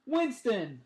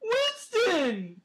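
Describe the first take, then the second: First: Happy cheer. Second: High, loud puppy voice; puppy dog voice. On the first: A narrator's reading. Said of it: "I happily cheer in, in my puppy dog voice". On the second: Pretend. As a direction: call him like a puppy talker. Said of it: "Give me your puppy dog voice".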